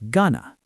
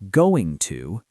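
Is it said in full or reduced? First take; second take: reduced; full. First: The words are blended into one short reduced word. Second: Both words are said fully and separately. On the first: "Learn spoken forms" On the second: "not dictionary forms"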